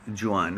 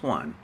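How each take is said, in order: First: Juan said zhoo-AHN, soft zh start, two syllables; Spanish-style Juan guess. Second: Juan said as one syllable, wahn, no zh sound; corrected Juan. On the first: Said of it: "Or is it". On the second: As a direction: settle on Juan as a single wahn. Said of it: "No, it's Juan". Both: Shown as a demonstration.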